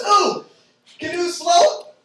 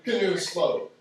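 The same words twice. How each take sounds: First: High, loud eager guess; squealed know-it-all guess; mock eager coworker. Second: Low, flat-voiced repeat of the dumb answer; dry, deadpan echo. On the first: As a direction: blurt it out like a keen know-it-all. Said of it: "one of the other servers goes". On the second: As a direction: let the answer drop with scorn. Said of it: "I'll let that sink in".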